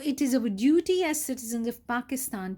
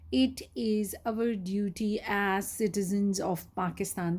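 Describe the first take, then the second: First: It is read smoothly without breaks between words. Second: It is read haltingly with breaks between words. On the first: The speaker calls it right. "They should be reading like this" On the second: The speaker calls it wrong. "That is not considered fluent reading"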